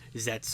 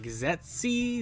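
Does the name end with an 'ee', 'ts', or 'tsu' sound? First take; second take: ts; ee. First: The name ends with a bare 'ts' sound. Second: The name ends with an 'ee' sound. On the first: The speaker calls it right. "it's pronounced Zets" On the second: The speaker calls it wrong. "you're probably like Zetzi"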